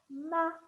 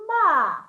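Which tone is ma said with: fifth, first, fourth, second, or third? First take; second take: fifth; fourth. First: The syllable is said in the fifth tone. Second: The syllable is said in the fourth tone. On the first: "And the fifth one" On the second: "The fourth tone"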